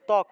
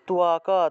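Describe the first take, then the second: First: The word ends on a bare consonant sound. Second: The word ends with a full vowel sound. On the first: The speaker calls it wrong. "আমরা উচ্চারণ করি ত্বক, অর্থাৎ হসন্ত দিয়ে ক উচ্চারণ করি" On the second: The speaker calls it right. "কটাকে পূর্ণ আলাদা করে উচ্চারণ করতে হবে"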